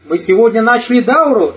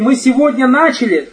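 First: The stress falls on the word дауру. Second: The stress falls on the word начали. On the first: The point is what was started. "Речь о чем идет? О дауре" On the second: The point is that it is only beginning. "То, что мы ее не заканчиваем. И только начали"

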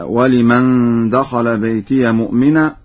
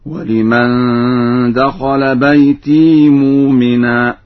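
First: The word bayti ends in iya. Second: The word bayti ends in a long i.

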